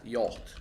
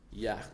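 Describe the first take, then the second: First: Yacht with a rounded "aw" vowel, no throaty sound; "Yacht" tested as "yawt", clean t at the end; trying out pronunciation. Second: Yacht with a short front "a" and throaty "ch" ending; "Yacht" tested as "yakh", with a guttural finish; trying out pronunciation. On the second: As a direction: say Yacht as "yakh", like "yak" with a raspy end. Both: Shown as a demonstration. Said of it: "How do you pronounce that?".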